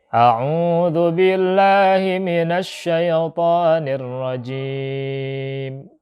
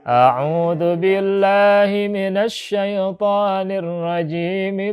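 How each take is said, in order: First: It ends with a stop before the next phrase. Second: It runs straight into the next phrase. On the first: The opening formula is kept separate from what follows. "kita berhenti di situ" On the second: The opening formula is joined to what follows. "antara isti'adzah dengan bismillah ini disambung"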